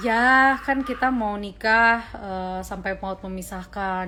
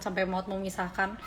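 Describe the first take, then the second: First: A slow, patient demo of her stock answer; slow, measured reply to nosy relatives; slow, deliberate answer. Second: Said in the usual way. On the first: Shown as a demonstration. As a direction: slowly spell out kita mau nikah and sampai maut memisahkan. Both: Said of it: "aku biasanya menjawabnya begini".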